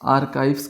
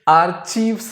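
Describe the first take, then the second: First: The middle consonant is a k sound. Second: The middle consonant is a ch sound. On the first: The speaker calls it right. "वहां क का sound आएगा सी एच में" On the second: The speaker calls it wrong. "ये आर्चीव्स नहीं पढ़ते हैं"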